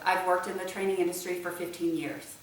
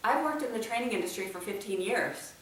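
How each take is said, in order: First: The voice falls at the end. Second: The voice rises at the end. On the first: It comes across as a direct answer. The speaker calls it right. "answer directly" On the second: It comes across as a question. The speaker calls it wrong. "you end it with a question"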